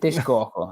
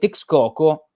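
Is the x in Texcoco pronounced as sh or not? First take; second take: sh; not sh. First: The x is pronounced as sh. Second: The x is not pronounced as sh. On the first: The speaker calls it right. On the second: The speaker calls it wrong.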